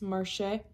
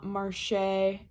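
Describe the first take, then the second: First: The final vowel is a short eh sound. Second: The final vowel is a long ay sound. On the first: The speaker calls it right. "it's marché" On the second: The speaker calls it wrong. "it's not marché"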